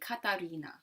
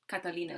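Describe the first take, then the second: First: The name is said with an R sound. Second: The name is said with an L sound. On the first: This is how Japanese speakers say it. "there's no like L sound, there's the R sound, so it's replaced" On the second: This is the English pronunciation. "in English we say L"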